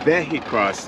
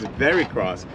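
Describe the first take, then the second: First: The middle syllable is said with an H sound. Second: The middle syllable is said with an R sound. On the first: The name comes from vehicle crossover. The speaker calls it right. "It's Vehicross. It's like a vehicle crossover" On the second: This is how most people say the name. The speaker calls it wrong. "most people think it's Vericross"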